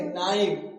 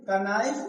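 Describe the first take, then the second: First: नाइफ said as naif, no K at the start; correct reading, silent K. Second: कनाइफ with a clear K, ka-naif; wrong reading with K sounded. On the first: Teacher giving students the correct reading, K silent. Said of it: "इसे क्या पढ़ेंगे". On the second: Teacher warning students against the wrong reading, K sounded. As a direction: sound the K before नाइफ as in कनाइफ. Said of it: "नहीं पढ़ेंगे". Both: Shown as a demonstration.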